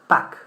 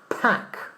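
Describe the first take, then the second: First: The p is soft with no puff of air. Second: The p explodes with a strong puff of air. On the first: It may be heard as a different word. The speaker calls it wrong. "people might understand back" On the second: It is heard as the intended word. The speaker calls it right. "You see how it explodes?"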